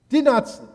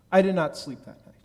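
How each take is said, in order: First: Did not sleep, much higher and louder, hammered home; emphatic repeat. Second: Said in the usual way. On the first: Retold or imitated. Rabbi telling the congregation he lay awake, emphatic repeat. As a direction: hit "Did" hard and high, each word punched.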